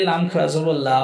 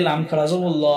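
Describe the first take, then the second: First: "লা" with a light, open a vowel; light laam. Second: "ল" with a heavy, rounded o-like vowel; heavy laam. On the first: Teacher explains the rule for Allah's name, light "লা". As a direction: say "জবর লা" with a thin, clear L and open aa. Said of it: "নিচে জেদ থাকলে". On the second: Teacher explains the rule for Allah's name, heavy "ল". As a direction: say "জবর ল" with a full, dark L. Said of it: "উপরে পেশ এবং জবর থাকলে". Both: Shown as a demonstration.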